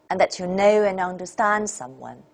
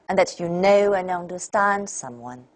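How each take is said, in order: Both takes have the same delivery.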